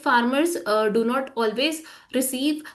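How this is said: The phrase is broken up by hesitant stops. The speaker calls it wrong. "अगर आप अटक अटक के बोलोगे"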